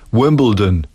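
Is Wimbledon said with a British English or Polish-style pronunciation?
British English. It is said with a British English pronunciation. The speaker calls it right. "Nauczyła mnie"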